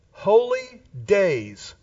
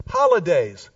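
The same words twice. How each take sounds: First: HOLY and DAYS drawn out slowly as separate words; slow, deliberate "Holy ... days"; split into two words. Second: Said in the usual way. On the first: Shown as a demonstration. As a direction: stretch "Holy days", weight on both words. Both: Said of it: "The word holidays means".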